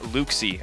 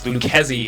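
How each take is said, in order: First: The name is said like 'Luxie'. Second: The name is said like 'Lucchesi'. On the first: The speaker calls it wrong. "and not Luxie" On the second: The speaker calls it right. "it is Lucchesi"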